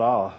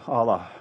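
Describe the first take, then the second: First: Said in the usual way. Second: "Allah" with two open ah vowels, AH-lah; careful Arabic-style Allah. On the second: Shown as a demonstration. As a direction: correct yourself to "Allah" as ah-LAH.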